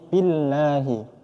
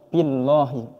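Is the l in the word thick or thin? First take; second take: thin; thick. First: The l in the word sounds thin. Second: The l in the word sounds thick. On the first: The speaker calls it right. "kalimat Allah ini kita baca tipis" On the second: The speaker calls it wrong.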